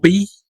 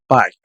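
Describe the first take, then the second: First: The word does not sound like English 'pie'. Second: The word sounds like English 'pie'. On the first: The speaker calls it right. "Yo les sugiero pronunciar esto como pays" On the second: The speaker calls it wrong. "si pronuncias como pie"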